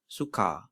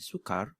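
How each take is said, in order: First: The final R is dropped, vowel lengthened. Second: The final R is pronounced. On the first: Common everyday Malay form. "in common Malay" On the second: Standard Malay form. "standard Malay"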